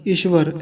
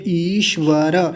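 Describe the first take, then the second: First: The first vowel is short. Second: The first vowel is long. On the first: The speaker calls it wrong. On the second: The speaker calls it right.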